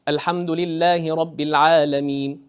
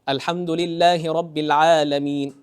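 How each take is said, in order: Both takes have the same delivery.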